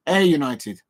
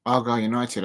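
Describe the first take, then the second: First: "Air United" with Air said like air dry; "Air United" settled on, the right way; corrected pronunciation. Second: "Argyle United" said as AR-gyle, the wrong way; "Argyle United" read off the page, guessing; first guess at the name. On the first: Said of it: "air, like air dry". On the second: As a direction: stumble through "Argyle United" like the written spelling. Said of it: "pronounce it Argyle". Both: Shown as a demonstration.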